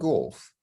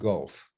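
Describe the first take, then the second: First: The word is said in an old-fashioned royal accent. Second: The word is said in a standard modern accent. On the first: "are you playing golf" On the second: "meaning golf"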